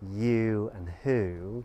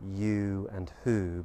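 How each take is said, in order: First: The vowel is said with smiling, spread lips. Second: The vowel is said with rounded lips. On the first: The speaker calls it wrong. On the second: The speaker calls it right.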